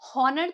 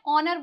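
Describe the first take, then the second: First: The word begins with an audible h sound. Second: The word begins directly with a vowel sound. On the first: The speaker calls it wrong. "हॉनर तो नहीं बोलते" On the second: The speaker calls it right. "लेकिन हम इसे क्या बोलते हैं, ऑनर बोलते हैं।"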